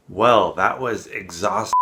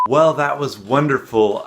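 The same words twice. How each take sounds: First: Weary slip. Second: Forced cheer. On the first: Slips, then corrects to wonderful. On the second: Cheerful correction of the slip. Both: Pretend.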